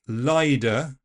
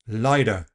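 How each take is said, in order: First: The T is replaced by a D sound. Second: The T is a quick tap. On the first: It sounds affected or posh. "A voiced D is also possible" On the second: It sounds American or Australian. "Tapping the T"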